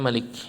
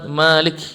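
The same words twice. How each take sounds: First: The first vowel is kept short. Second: The first vowel is held long.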